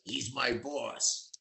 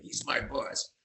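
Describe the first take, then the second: First: Slow, quiet, a hint of a gruff jukebox operator; lightly voiced tough jukebox guy. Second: Whispered, half-hearted gruff operator; jukebox operator whisper. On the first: [name] tells [name] who the boss is, lightly voiced gruff operator. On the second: Retold or imitated. Repeating [name]'s line to [name], a whispered gruff operator. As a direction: breathe it like a tough jukebox man. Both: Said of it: "[name] talked like a jukebox operator".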